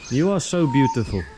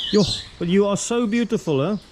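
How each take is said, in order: First: Said in the usual way. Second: Higher, gushing over the bird; high cooing praise. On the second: Real, not acted. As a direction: coo the compliment up high. Admiring a bird.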